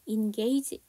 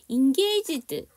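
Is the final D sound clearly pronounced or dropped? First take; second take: dropped; clear. First: The final D sound is dropped. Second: The final D sound is clearly pronounced. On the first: "D 발음은 정확하게 안 하셔도 되죠. 그래서 engage 이렇게 해주셔도 되는데" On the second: "engaged 이렇게 발음을 하셔도 되는데"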